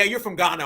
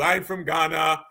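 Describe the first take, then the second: First: Said in the usual way. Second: Slow, low imitation of a Ghanaian caller; caught-out caller in mock Ghanaian accent. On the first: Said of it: "somebody with a fake accent". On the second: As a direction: put on a drawn-out Ghanaian accent. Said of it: "somebody with a fake accent like him".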